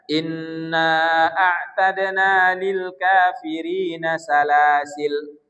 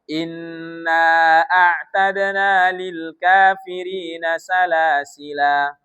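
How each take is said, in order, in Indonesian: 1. Kata terakhir berakhir dengan konsonan l mati. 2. Kata terakhir berakhir dengan vokal a yang dipanjangkan. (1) "Menghilangkan alif... lamnya jadi su sukun" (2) "alifnya tetap dibaca, dibaca menjadi mat tabi'i"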